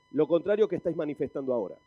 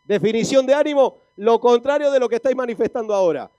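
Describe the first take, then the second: First: Said in the usual way. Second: Loud, higher-pitched preacher's definition; loud rousing proclamation. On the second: Real, not acted. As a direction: proclaim it forcefully to wake up the congregation. Repeats it loudly to rouse congregation.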